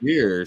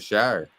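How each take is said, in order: First: The vowel rhymes with 'beer'. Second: The vowel rhymes with 'fire'. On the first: The speaker calls it wrong. "Not sheer" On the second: The speaker calls it right. "shire. Worcestershire. That's what it is"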